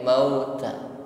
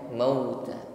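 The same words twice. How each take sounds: First: The u vowel is said without rounded lips. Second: The u vowel is said with fully rounded lips. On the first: The speaker calls it wrong. "Ketika bibir tidak dihimpun sempurna maka bunyinya mauta" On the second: The speaker calls it right. "bukan mauta"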